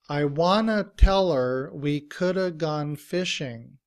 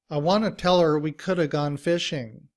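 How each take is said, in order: First: The sentence is said at a moderate pace. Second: The sentence is said quickly. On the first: "repeat after me" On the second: "And faster"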